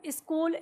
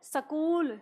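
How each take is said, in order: First: The s joins the k with no vowel. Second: A full vowel follows the first s sound. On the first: The speaker calls it right. "इनको इसी तरह से बोलते हैं" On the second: The speaker calls it wrong. "Haryana की तरफ जाओगे ना तो सकूल, सकूटर ऐसे बोलते हैं"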